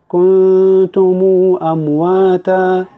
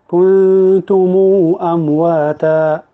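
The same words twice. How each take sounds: The two takes are said the same way.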